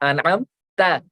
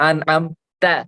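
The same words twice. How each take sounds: No difference in how they are said.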